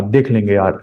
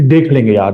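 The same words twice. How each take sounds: First: Lazy careless. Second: Casual shrug. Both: Retold or imitated. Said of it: "lightly का मतलब क्या है कि".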